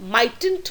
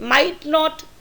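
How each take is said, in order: First: It is said as one contracted word. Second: It is said as two separate full words.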